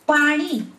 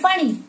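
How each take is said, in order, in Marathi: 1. शेवटचा स्वर दीर्घ उच्चारतात. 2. शेवटचा स्वर ह्रस्व उच्चारतात. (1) "दीर्घ आहे, ते म्हणजे जल" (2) "नी ऱ्हस्व आहे म्हणजे ऱ्हस्व वेलांटी आहे, पाणी म्हणजे हात"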